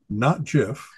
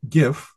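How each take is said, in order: First: It starts with a soft j sound. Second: It starts with a hard g sound. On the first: The speaker calls it wrong. "the creator of that format, said GIF. ... he's wrong" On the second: The speaker calls it right. "It's graphic, so it's GIF"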